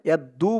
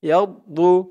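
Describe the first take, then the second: First: The middle consonant is a light, plain d. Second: The middle consonant is heavy, with a full mouth. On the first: The speaker calls it wrong. "ইয়াদ্দু বললে কিন্তু দোয়াদের জায়গায় দালের উচ্চারণ চলে আসবে" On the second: The speaker calls it right. "বলতে হবে ইয়াদু। দোয়াদের উচ্চারণটা করার সময় মুখটা একটু ভরপুর হয়ে যাবে"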